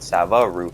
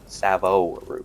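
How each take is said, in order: First: The second syllable has an 'a' vowel. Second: The second syllable has an 'o' vowel. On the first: The speaker calls it wrong. "I was pronouncing it Sava root and not Savo" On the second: The speaker calls it right. "Savo root, not Sava"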